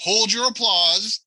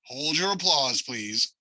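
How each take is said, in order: First: Slow, high mock hush to the crowd; milking the applause. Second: Softer, fading plea for quiet; milking the applause. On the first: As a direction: savour the fake applause. Host hushing imagined applause. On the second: Pretend. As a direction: hush them down gently, dropping away.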